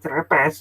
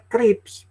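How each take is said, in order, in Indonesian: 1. Diucapkan huruf demi huruf, gaya Indonesia. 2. Diucapkan cara Inggris, sebagai satu suku kata. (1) "bukan cerepes" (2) "Itu bacanya krips"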